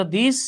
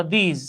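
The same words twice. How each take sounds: First: দিস as "this", ending in a crisp s; pronunciation of this. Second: দিস as "theez", long ee and final z; pronunciation of these. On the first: Teacher contrasting it with these, this pronounced with s. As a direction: say দিস with short i and final s. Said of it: "ওটা ছিল দিস". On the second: Teacher contrasting it with this, these pronounced with z. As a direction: say দিস with a buzzing z ending, like জিম. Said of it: "এটা হলো দিস". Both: Shown as a demonstration.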